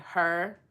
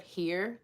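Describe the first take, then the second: First: "her" for here, vowel swallowed into the r; "her", rhyming with fur, meaning here; Kentucky "her". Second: Said in the usual way. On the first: Shown as a demonstration. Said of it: "in Kentucky, they say, like". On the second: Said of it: "instead of here".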